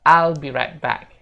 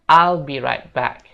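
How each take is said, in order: First: I will is shortened into one syllable. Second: I will is shortened into one syllable.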